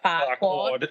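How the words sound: It is said with an Australian accent. It sounds like a rude word. "paired with an Aus- Australian accent too. It's like Farquaad"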